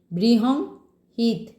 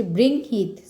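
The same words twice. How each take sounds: First: বৃহংহিত said slowly as bri-hong-hit, with an extra syllable; drawn-out বৃহংহিত, the mistaken form; slow bri-hong-hit before the correction; wrong pronunciation. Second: বৃংহিত said clearly as brinhit, with the nasal ng before h; teacher's corrected বৃংহিত, without the extra syllable; corrected pronunciation. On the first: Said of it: "বৃহং নয়, sorry". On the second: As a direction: spell out বৃংহিত carefully, brin-hit. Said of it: "উচ্চারণটা হচ্ছে বৃংহিত". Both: Shown as a demonstration.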